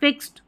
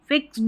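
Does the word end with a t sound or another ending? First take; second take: t sound; other ending. First: The word ends with a light t sound. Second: The word does not end with a t sound. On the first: The speaker calls it right. "अगर आप सही बोलेंगे फिक्स्ड" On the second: The speaker calls it wrong. "फिक्स्ड नहीं बोलेंगे"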